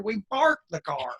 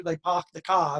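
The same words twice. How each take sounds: First: Said in the usual way. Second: R-less New Hampshire "park the car", said "pahk the cah"; New England accent. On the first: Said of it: "and we down here". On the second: Retold or imitated. Explaining how folks up north say it, in a light New England accent. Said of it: "in New Hampshire".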